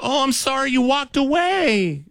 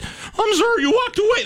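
First: High, slow, cracking apology. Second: Squeaky apology, very much higher, breaking; voice cracking. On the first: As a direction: let the voice crack upward on 'sorry'. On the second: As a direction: let 'walked' crack way up high. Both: Retold or imitated. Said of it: "my voice cracked too".

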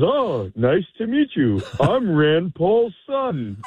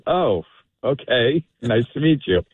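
First: High, drawn-out mock drunk greeting; drunk young man. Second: Polite, uninterested reply. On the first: Drunk introduces himself to a stranger at the bar, mock drunk. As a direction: imitate a bombed guy introducing himself, slow and pitched way up. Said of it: "somebody is completely bombed". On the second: Retold or imitated. Sober patron answers a drunk stranger, politely uninterested. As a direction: humour the drunk with no real interest. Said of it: "zero interest in talking".

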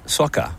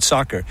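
First: Soccer in a lightly put-on British accent; imitated British accent. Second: Said in the usual way. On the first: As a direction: mimic a Brit saying soccer, dropping the r. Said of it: "said it like you". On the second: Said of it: "what if we said it like you".

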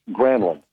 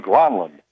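First: Granlund said "GRAN-lund"; player's pronunciation. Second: Granlund said "GRAHN-lund"; Finnish pronunciation. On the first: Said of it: "the player said Granlund". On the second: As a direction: open the vowel of Granlund to "ah". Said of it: "the actual Finnish pronunciation is more like". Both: Retold or imitated.

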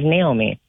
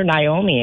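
First: Said in the usual way. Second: Naomi starting like "nigh"; mispronounced name. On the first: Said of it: "instead of Naomi". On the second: Retold or imitated. Telling hosts what people call her, Naomi as nigh-OH-mee. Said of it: "people who call her Naomi instead".

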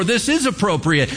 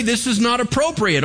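First: "is" punched in contrast, raised pitch; stress on IS. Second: "not" set firmly against its opposite, high-pitched throughout; stress on NOT. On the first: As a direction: lean on "is" to affirm the opposite. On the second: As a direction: lean on "not" in a high, firm verdict. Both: Shown as a demonstration. Models two opposite firm verdicts.

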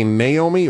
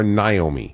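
First: "Naomi" with a first vowel as in "day"; Naomi with NAY. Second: "Naomi" with a first vowel as in "eye"; Naomi with NIGH. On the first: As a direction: say "Naomi" opening on NAY, as nay-OH-mee. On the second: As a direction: say "Naomi" opening on NIGH, as nigh-OH-mee. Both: Shown as a demonstration. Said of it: "do you say Naomi or Naomi".

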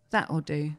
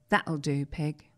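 First: Soft final that'll do. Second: Tender film line. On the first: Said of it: "Right down the lens". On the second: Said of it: "how he wanted me to deliver my final line". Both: Retold or imitated.

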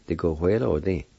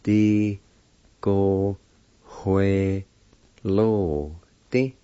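First: Said in the usual way. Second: "Di, go, hue, lo, di" with long gaps; each syllable of "Di, go, hue, lo, di" drawn out alone; broken into syllables. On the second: Shown as a demonstration. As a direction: sound out "Di, go, hue, lo, di" slowly. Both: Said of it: "It's pronounced like this".

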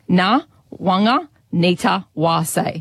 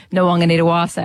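First: Na, Wanga, Nita, Wa, Say as separate chunks; phonetic, piece by piece. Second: Nwang'anitawase run together as one word; put together faster. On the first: Co-host teaches presenter the name, piece by piece. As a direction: sound out the name with a gap after each piece. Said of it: "each of those words phonetically". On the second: Co-host shows the learner where to get to, joined up and faster. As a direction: roll through the whole name fluently. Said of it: "putting it together faster". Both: Shown as a demonstration.

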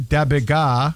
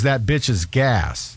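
First: Slurred "Da bit ga"; teen's mumbled accent. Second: "that bitch is gas" slow and fully articulated; slow clear translation. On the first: Retold or imitated. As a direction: say it mumbled like the teen. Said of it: "is that bitch is gas". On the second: Shown as a demonstration. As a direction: spell out "that bitch is gas" slowly.

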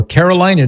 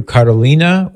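First: Carolina said with a long "i", kair-o-LINE-ah; English-style pronunciation. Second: Carolina said with an "ee", kah-ro-LEE-nah; Spanish-style pronunciation. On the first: Host offering the other way, Carolina pronounced with LINE. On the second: Host thanking a donor, Carolina pronounced with "ee" in LEE. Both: Shown as a demonstration. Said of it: "depending on how you say it".

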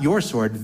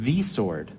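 First: "your" punched as the rejected word; stress on "your". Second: "the" said as "thee", with emphasis; emphatic "thee" before "sword"; stress on "the". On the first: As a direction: hit "your" to set up a contrast. Contrasts your sword with the sword. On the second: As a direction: hit "the" as "thee", meaning the one and only. Corrects your sword to the sword. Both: Real, not acted.

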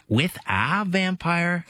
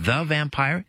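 First: "a" set apart and drawn out; stress on A. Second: "the" drawn out and emphasized; stress on THE. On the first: Host contrasting book titles, heavy stress on "a". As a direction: lean slowly on the word "a". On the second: Host contrasting book titles, heavy stress on "the". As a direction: lean slowly on the word "the". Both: Shown as a demonstration. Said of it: "rather than the vampire".

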